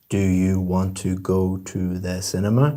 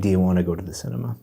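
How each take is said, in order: First: Every word is pronounced separately and fully. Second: The words are run together smoothly.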